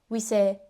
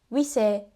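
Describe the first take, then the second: Both takes have the same delivery.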